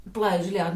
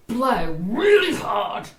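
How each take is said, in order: First: Said in the usual way. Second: Drawn-out, slow coaching; emphatic instruction. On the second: Acted. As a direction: stretch out each word like an instruction. Joke boyfriend gives instruction.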